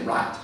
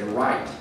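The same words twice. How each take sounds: First: "right" said with a flat vowel, "raht", no glide; right without the glide. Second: "right" said with a full glide, like "rah-eet". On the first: A speaker showing the green side saying "right" without a glide. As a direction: flatten "right" into a single long ah. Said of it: "right without the glide". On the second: A speaker showing the white side of the map saying "right" with a glide. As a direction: give "right" a gliding vowel, ah into ee. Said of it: "right with the glide". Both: Shown as a demonstration.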